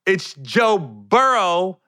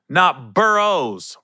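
First: BURROW drawn out, with no S at the end; Burrow without S. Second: BURROWS drawn out, with an S on the end. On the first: Hype man correcting the announcers, Burrow stressed without S. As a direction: say Burrow slowly, ending on the open O. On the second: Hype man mocking the announcers, Burrows with an added S. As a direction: slowly stress the wrong final S in Burrows. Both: Retold or imitated. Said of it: "for all the announcers out there".

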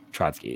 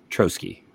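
First: Trotsky said as TROT-skee; Russian dictator's pronunciation. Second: Trotsky said as TROH-skee; long O in Trotsky, no first T-sound before the S; alternative pronunciation. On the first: Host checking a player's surname, Trotsky as TRAHT-skee like the dictator. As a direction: open AH vowel in Trotsky, with a T before the S. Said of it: "pronunciation like the Russian dictator". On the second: Host trying a player's surname to avoid the dictator's, Trotsky as TROH-skee. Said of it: "got yelled at for using the pronunciation". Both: Shown as a demonstration.

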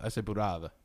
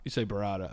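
First: Burrata said the Italian way, buh-RAH-tah; Italian pronunciation. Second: Said in the usual way. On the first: Shown as a demonstration. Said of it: "I've never heard you talk like this".

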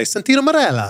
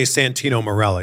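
First: Santino Marella in a put-on Italian accent. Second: Said in the usual way. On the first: Shown as a demonstration. Host showing how the wrestler's name must be said, Italian accent. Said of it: "You have to say Santino Marella". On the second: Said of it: "can't just say Santino Marella".

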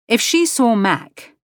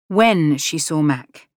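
First: If stressed, higher and slowed. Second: When stressed firmly, slowed, self-correcting. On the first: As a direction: lean on If, then correct yourself. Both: Acted.

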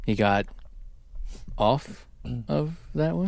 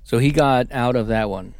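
First: OFF set apart by long pauses; pause around OFF. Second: Said in the usual way. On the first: Real, not acted. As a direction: hold back before OFF, then finish higher and softer. Pauses to land innuendo pun.

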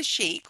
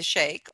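First: "sheik" said like "sheek". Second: "sheikh" said like "shake". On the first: Host asking listeners which they are, "sheik" as "sheek". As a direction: say "sheik" with a long ee, as in seek. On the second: Host asking listeners which they are, "sheikh" as "shake". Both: Shown as a demonstration. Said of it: "whichever way you say it".

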